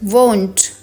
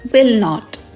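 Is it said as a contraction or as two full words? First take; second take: contraction; full words. First: The words are joined into one short syllable. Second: The words are said as two separate syllables. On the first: "short form" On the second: "full forms"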